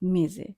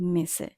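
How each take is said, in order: First: The middle consonant is a voiced z-like sound. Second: The middle consonant is a voiceless s sound. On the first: The speaker calls it right. "এসে এর উচ্চারণ আমরা এখানে জয়ের মতো করব" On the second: The speaker calls it wrong. "আমরা বলবো না মেসে"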